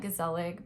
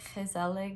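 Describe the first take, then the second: First: The word is pronounced with English-style sounds. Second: The word is pronounced with Dutch-style sounds. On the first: The speaker calls it wrong. "I'm gonna say this incorrectly. It's I'm gonna call it" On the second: The speaker calls it right. "I know it's Dutch and it's like"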